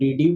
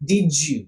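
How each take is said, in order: First: Each word is said separately, with a clear d. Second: The words blend together with a j sound. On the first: The speaker calls it wrong. "അങ്ങനെയാണോ വെക്കേണ്ടത്?" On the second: The speaker calls it right. "ഡിഡ് യു എന്നുള്ളതിന് വരും ഡിജു"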